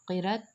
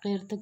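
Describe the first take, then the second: First: The word has two short syllables. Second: The word is squeezed into one syllable. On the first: "कहना दुरुस्त नहीं" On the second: "कहना दुरुस्त नहीं"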